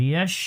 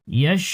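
No difference in how they are said.

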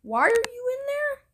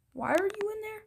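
First: High, loud call to the villager. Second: Said in the usual way. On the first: Real, not acted. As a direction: shout it up at him, puzzled. Calling out to a villager.

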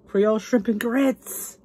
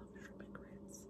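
First: Gasp, then slow delighted reading; excited announcement. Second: Barely audible, reverent whisper; awed whisper. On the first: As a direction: announce the dish with relish, slowly. Gasps at dish, announces it. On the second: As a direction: whisper the dish to yourself in awe. Repeats dish in awe. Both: Real, not acted.

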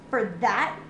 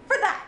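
First: Said in the usual way. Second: "For that!" exclaimed high, with "For" hit hard; stress on For. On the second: Real, not acted. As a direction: fling "For that!" out, indignant. Repeats it as an exclamation.

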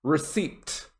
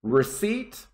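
First: Slow receipt with the P sounded; receipt ending in a clear P-T; wrong receipt. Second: Receipt said ree-SEET, P silent; receipt with no P sound; correct receipt. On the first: Teacher contrasting the wrong receipt, slowly. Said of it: "That's incorrect pronunciation". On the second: Teacher reminding students of the right receipt. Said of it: "not receipt". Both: Shown as a demonstration.

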